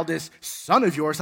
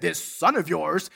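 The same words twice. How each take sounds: First: Said in the usual way. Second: "This son of yours" slowed, leaning on "of yours"; stress on yours. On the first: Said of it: "didn't say, "My brother". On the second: Shown as a demonstration. Preacher quoting the elder brother's cold words, slow stress. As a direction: drag out "This son of yours" coldly. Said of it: "didn't say, "My brother." He said".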